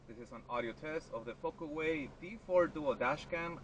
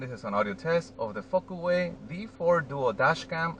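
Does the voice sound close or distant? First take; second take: distant; close. First: The voice sounds distant, from outside the car. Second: The voice sounds close, inside the car. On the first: "I'm standing outside the driver's side door" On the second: "I am sitting on the driver's side seat"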